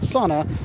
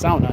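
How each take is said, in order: First: The first syllable sounds like 'saw'. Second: The first syllable sounds like 'sow'. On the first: The speaker calls it wrong. "not sauna. You're not cutting anything" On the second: The speaker calls it right. "it's sauna"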